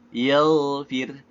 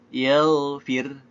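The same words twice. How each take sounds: The two takes are said the same way.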